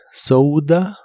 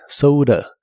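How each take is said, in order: First: "soda" with a clear d and ou; "soda" d sounded; d version. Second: "soda" d flapped; flap version. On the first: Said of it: "la puedes pronunciar como D". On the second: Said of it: "o como R". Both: Shown as a demonstration.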